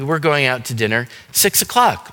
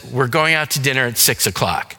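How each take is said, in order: First: It is said in a happy tone. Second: It is said in an annoyed tone.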